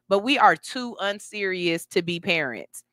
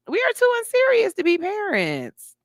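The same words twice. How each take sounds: First: Said in the usual way. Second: Higher repeat with "too" stressed; emphatic repeat. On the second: Real, not acted. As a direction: land the repeat hard on "too".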